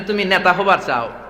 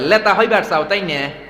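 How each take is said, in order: First: It is said in standard Bengali with n. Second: It is said in the Pabna dialect, n as l.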